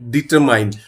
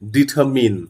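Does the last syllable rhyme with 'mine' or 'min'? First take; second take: mine; min. First: The last syllable rhymes with 'mine'. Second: The last syllable rhymes with 'min'. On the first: The speaker calls it wrong. "This is not ডিটারমাইন" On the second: The speaker calls it right. "This is ডিটারমিন"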